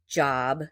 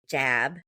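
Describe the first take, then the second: First: The vowel is the open 'ah' as in father. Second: The vowel is fronted, like the 'a' in cat. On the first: "instead of saying job" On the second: "that short O becomes like a short A"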